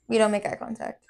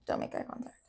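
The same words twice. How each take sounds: First: Said in the usual way. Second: Very soft whisper; voiceless, trailing murmur; hushed echo. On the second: Real, not acted. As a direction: whisper it almost to yourself.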